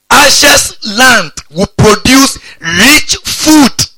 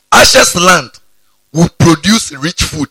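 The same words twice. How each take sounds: First: Very slow, high, loud declaration; stretched-out, ringing preacher's emphasis; drawn-out proclamation. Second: Said in the usual way. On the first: Real, not acted. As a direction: proclaim each word slowly, voice raised high and loud. Verse repeated with drawn-out relish.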